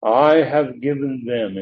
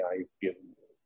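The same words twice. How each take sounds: First: "I" punched and drawn out slowly; emphatic I. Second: Said in the usual way. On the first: Shown as a demonstration. Preacher quoting Christ's words to the congregation, emphatic "I". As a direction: put heavy weight on "I", falling after it.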